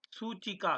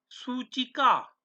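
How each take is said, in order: First: Said in the usual way. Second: सूचिका said slowly, syllable by syllable: soo-chi-ka; slow model pronunciation. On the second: Shown as a demonstration. Teacher modelling सूचिका for students, slow and clear. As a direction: draw out सूचिका clearly for the class. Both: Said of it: "उच्चारण करते रहना".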